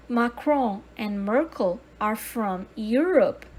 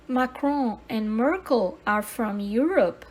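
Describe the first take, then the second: No difference in how they are said.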